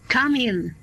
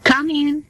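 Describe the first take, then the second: First: Said in the usual way. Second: Raised voice, called through the door; calling out. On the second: Acted. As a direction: call the next patient in from across the room. Doctor calls patient through door.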